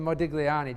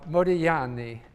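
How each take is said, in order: First: The G in the name is sounded. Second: The G in the name is silent. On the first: It is the version listeners understand more easily. "I tend to say Modigliani just to be understood" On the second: It is the original Italian pronunciation. "in Italian, you don't pronounce the G"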